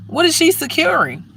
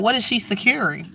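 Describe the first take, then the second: First: Pitched high in disbelief, she stressed; incredulous. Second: Said in the usual way. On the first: Real, not acted. Ranting about a pregnant guard, incredulous high. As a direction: ask it again, way up in disbelief.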